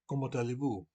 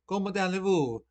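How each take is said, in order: First: It is said with a standard French accent. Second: It is said with an Italian accent.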